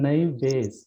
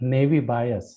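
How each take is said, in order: First: The second word rhymes with 'face'. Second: The second word rhymes with 'eyes'. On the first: The speaker calls it right. "it's Navy base" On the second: The speaker calls it wrong. "it's not pronounced as Navy bias"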